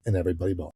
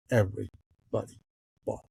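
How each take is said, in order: First: Said in the usual way. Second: "Everybody" then a pause, "bought" dropped soft; word-by-word emphasis. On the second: Real, not acted. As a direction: break "Everybody" from "bought" with a pause, landing "bought" quietly.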